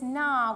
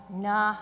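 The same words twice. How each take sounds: First: Said in the usual way. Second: Short, low, defeated dismissal. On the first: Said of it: "was more like a". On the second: Shown as a demonstration. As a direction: let it drop lower, like giving up. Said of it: "that defeated no".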